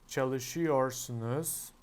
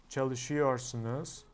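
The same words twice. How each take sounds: The two takes are said the same way.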